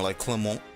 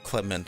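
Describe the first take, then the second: First: The name ends with an o vowel sound. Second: The name ends without an o vowel sound. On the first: The speaker calls it right. "he has an O in his name... Because it is French... Lemon" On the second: The speaker calls it wrong. "the anime's wrong"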